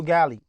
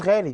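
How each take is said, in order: First: "جالي" with a hard g replacing ghain; English speakers' hard G. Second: "غالي" with a throaty ghain; Arabic ghain. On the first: Retold or imitated. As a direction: say Ghali as "جالي", starting like go. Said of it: "بيقولوا جالي". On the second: Shown as a demonstration. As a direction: start "غالي" on Arabic gh, not hard g. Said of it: "ما عندهمش الغين في لسانهم".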